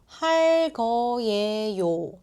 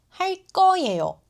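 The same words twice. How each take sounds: First: The second word starts with a plain, soft consonant. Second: The second word starts with a tense, strong consonant. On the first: The speaker calls it wrong. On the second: The speaker calls it right.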